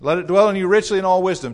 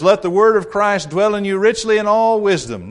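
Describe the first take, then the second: First: "dwell" punched loud and high, quicker pace; stress on dwell. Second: "word" hit high and loud, falling after; stress on word. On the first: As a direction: drive the line fast and lean on "dwell". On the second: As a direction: lean hard on "word" in this quoted verse. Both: Shown as a demonstration. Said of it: "Notice the emphasis on the word of Christ".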